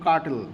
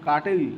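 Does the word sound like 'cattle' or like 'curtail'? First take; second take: cattle; curtail. First: It sounds like a different word, cattle. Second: It sounds like the word curtail. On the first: It names a different thing. The speaker calls it wrong. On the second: It means to reduce something. The speaker calls it right.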